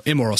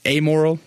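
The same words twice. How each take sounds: First: "Immoral" with a short IM at the front; alternative pronunciation. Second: "amoral" with a long AY at the front; unsure pronunciation. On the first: Speaker offering the other word, "Immoral" starting with short IM. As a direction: say "Immoral" as im-MORAL, settling for it. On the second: Speaker unsure which word is proper, unsure "amoral" starting AY. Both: Shown as a demonstration. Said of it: "I don't know the proper, uh, enunciation".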